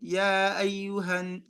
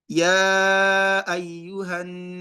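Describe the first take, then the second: First: The opening vowel is held for two beats. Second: The opening vowel is held for four beats. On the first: "let me read it with two harakat" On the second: "That's four harakat with my own recitation"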